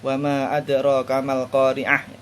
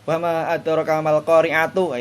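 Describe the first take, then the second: First: The last word ends with an 'h' sound. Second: The last word ends with a 'tu' sound. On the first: The reading stops at this word. "Tapi kalau waqaf" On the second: The reading continues without stopping. "itu wasal"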